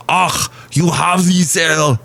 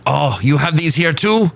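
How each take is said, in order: First: Thick, hammed-up German accent, higher and slow; Arnold-style German accent. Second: Lightly put-on, higher German accent; a poor stab at a surprised German visitor; awful German accent. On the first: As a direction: overdo the German accent, drawing out the vowels. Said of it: "Now I'm sounding like Arnold". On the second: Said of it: "That was an awful German accent".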